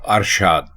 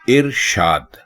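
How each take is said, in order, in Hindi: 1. यह शब्द 'a' स्वर से शुरू होता है। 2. यह शब्द 'i' स्वर से शुरू होता है। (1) "अलिफ के ऊपर जबर डालकर" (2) "हमेशा अलिफ के नीचे जेर डालिए"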